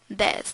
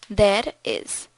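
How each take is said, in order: First: It is said as one contracted syllable. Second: It is said as two separate full words.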